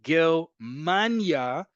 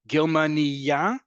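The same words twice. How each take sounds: First: Germania very slow, a long stressed MAN before the end; stress on Germania's second-to-last syllable. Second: Germania slow, rising onto a stressed final YA; stress on Germania's last syllable. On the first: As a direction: lean on MAN in Germania, stretching it. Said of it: "emphasis on the penultimate syllable". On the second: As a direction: hold back, then lean on the last YA of Germania. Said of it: "emphasis on the last syllable". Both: Shown as a demonstration.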